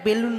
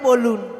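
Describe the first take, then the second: First: The first vowel sounds like 'e'. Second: The first vowel sounds like 'o'. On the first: The speaker calls it wrong. "ওটা বেলুন নয়" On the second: The speaker calls it right. "বলো যে বলুন"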